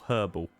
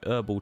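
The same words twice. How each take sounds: First: The starting h sound is clearly pronounced. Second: The starting h sound is left out.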